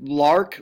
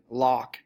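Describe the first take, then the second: First: The R after the vowel is pronounced. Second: The R after the vowel is dropped. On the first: "if we've got lark" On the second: "they might just say lock"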